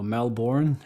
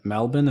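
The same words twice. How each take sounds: First: It is said with an overseas, non-Australian pronunciation. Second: It is said with the local Australian pronunciation.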